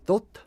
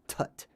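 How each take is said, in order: First: The name is said with an Egyptian-style vowel. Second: The name is said with an American accent.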